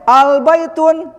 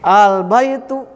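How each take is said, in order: First: The word ends with an added final n sound. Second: The word ends on a vowel without final n. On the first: The speaker calls it wrong. "Jadi enggak boleh al baitun, ini salah" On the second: The speaker calls it right. "Tanwinnya dibuang ketika kemasukan al"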